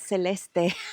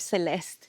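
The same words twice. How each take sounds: First: The name is pronounced with Spanish sounds. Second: The name is pronounced with English sounds. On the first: "I really want to pronounce it in Spanish" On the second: "it can be called Celeste"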